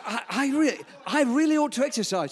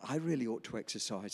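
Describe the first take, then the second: First: Higher and louder, with a laugh in it; amused quote. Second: Quoting the nurse low and soft, almost to himself; muted quote. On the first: Pastor retelling the nurse's admission with a laugh. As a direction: repeat her line again with relish, chuckling. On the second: Pastor quoting the nurse's admission, low and soft. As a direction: say it quietly, as a flat first report. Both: Retold or imitated. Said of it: "This is what she said".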